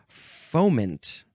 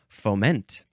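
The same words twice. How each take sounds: First: The stress is on the first syllable. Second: The stress is on the second syllable.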